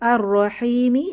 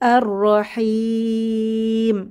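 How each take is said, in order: First: The word ends on a short final vowel. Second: The long vowel is stretched, ending on m.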